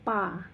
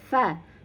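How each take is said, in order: First: The first sound is a p made with both lips. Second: The first sound is an f made with teeth. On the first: The speaker calls it wrong. "terbawa aksen e, mengucapkan menjadi pa. Nah, ini salah ya" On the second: The speaker calls it right. "Ujung gigi seri atas bertemu dengan bibir bawah bagian dalam"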